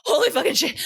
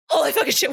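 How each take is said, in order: First: High, mock-panicked cursing; panicked exclamation. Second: Repeated panicked exclamation. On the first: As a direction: blurt it like you just escaped a killer. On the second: Retold or imitated. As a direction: say it again, still shaken but settling. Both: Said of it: "You'd be like".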